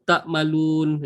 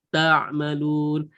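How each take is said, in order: First: A plain k sound closes the first syllable. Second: A thick throaty ain closes the first syllable. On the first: The speaker calls it wrong. "tak malun kita boleh je T A K" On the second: The speaker calls it right. "Ain dia kena tebal sikit"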